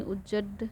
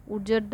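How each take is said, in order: First: उज्जड with a held double ज and single ड; doubled ज. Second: उज्जड with a single ज and doubled ड at the end; wrong spelling pronounced. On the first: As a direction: say उज्जड as "uj-jaD", lingering on the ज. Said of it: "दो बार जय रहेगा". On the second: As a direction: say उज्जड as "ujaDD", weight on the final ड. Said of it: "ये नहीं रहेगा". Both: Shown as a demonstration.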